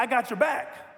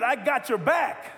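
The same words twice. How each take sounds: First: Said in the usual way. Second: I got your back with conviction, slower; mean every word of I got your back; firm, heartfelt promise; said like you believe it. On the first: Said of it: "turn to the person next to you and say". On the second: Shown as a demonstration. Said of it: "you gotta say it like you believe it".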